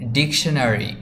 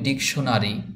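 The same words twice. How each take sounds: First: It is said with a native English-style accent. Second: It is said with a Bengali-style accent. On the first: The speaker calls it right. "এটার সঠিক উচ্চারণ হবে ডিকশনারি" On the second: The speaker calls it wrong. "আমরা যদি বলি ডিকশনারি তাহলে এটার উচ্চারণটা সঠিক হবে না"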